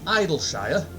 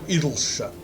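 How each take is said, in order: First: The ending is said as a full 'shire'. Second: The ending is reduced to a short 'sha'. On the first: The speaker calls it wrong. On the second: The speaker calls it right.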